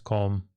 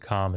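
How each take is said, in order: First: The vowel is a short o sound. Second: The vowel is not a short o sound. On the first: The speaker calls it right. "it's an all sound. It's a short O" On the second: The speaker calls it wrong. "instead of being com"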